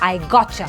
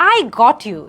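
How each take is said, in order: First: The t and y blend into a ch sound. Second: The t and y sounds stay separate. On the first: "টা এবং ইয়া blend হয়ে চা sound তৈরি করেছে" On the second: "এটা না বলে"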